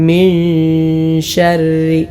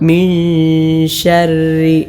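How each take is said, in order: No difference in how they are said.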